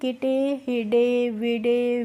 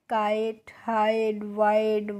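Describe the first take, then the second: First: The i is short and the final e is voiced. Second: The i sounds like 'eye' and the e is silent. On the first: The speaker calls it wrong. "इसी तरीके से नहीं पढ़ना है बच्चों" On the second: The speaker calls it right. "आई का pronunciation होता है आई करके होता है"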